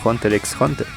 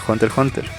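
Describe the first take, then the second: First: The x between the words is pronounced. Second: The x between the words is silent. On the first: The speaker calls it wrong. "no Hunter x Hunter" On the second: The speaker calls it right. "se dice Hunter x Hunter"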